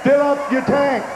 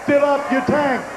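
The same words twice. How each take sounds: The two takes are said the same way.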